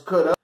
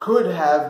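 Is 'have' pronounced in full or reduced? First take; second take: reduced; full. First: Have is reduced to a short uh sound. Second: The word have is said in full.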